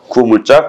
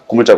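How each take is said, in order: First: Both syllables of the first word are said fully. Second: It is said fast, squeezed into one short word.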